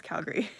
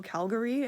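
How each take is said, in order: First: CALGARY squeezed to CAL-gree; quick two-syllable CAL-gree for CALGARY; local pronunciation. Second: CALGARY in three full syllables, CAL-guh-ree; over-careful CAL-guh-ree for CALGARY; outsiders' pronunciation. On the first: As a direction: drop the middle vowel of CALGARY. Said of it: "no, it's Calgary". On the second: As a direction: sound out the middle vowel of CALGARY. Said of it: "Some people go Calgary". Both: Shown as a demonstration.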